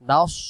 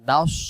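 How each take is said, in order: First: The s is heavy, with rounded mouth. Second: The s is heavy, with rounded mouth.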